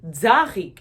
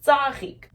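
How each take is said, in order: First: 'tzarik' opened with a buzzing dz; voiced dz variant. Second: 'tzarik' with a crisp unvoiced ts, louder; correct ts sound. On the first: Teacher applying same thing to another sound, contrast demo. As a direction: say 'tzarik' as dzah-reek. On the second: Teacher contrasting the word for flower, careful demo. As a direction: say 'tzarik' as tsah-reek, higher and firm. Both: Shown as a demonstration. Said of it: "It doesn't sound the same as".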